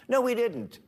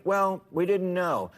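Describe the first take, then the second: First: "No" jumps high and falls hard, then "we didn't" flat; stress on no. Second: Slow, whiny mimicry of a lame excuse; mock excuse. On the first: Real, not acted. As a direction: snap back with a high, sharp "No". Rebutting the quoted excuse. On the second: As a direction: drag out "we didn't know" like a tired dodge. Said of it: "I'm tired of hearing".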